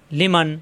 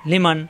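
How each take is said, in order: Both takes have the same delivery.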